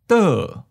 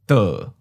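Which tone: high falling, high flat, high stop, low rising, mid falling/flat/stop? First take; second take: high falling; mid falling. First: The syllable starts high and falls. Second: The syllable starts mid and falls. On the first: "Second tone, high falling" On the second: "Third tone, mid falling"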